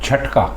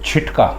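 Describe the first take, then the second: First: The first vowel is a short 'a'. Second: The first vowel is a short 'i'. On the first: The speaker calls it right. "ये दुरुस्त है" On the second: The speaker calls it wrong. "ये गलत है"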